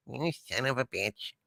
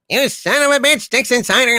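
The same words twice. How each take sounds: First: Much softer, low seething curse; quiet seething. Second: Much higher, hammed-up villain outburst; mock outrage. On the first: Acted. Harvey, alone in his field, curses the poem's sender in a soft low seethe. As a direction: simmer it under your breath. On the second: Harvey turns on Dixon Sider, bursting into a hammed-up, higher villain rage. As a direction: explode in theatrical rage.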